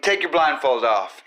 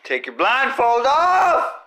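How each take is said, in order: First: Said in the usual way. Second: Urgent shout. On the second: Shown as a demonstration. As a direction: yell it out, slower and higher.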